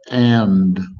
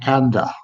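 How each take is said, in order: First: The word ends cleanly without an extra vowel. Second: An extra vowel is added after the word. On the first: The speaker calls it right. "It's just it's just and" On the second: The speaker calls it wrong. "people want to say anda"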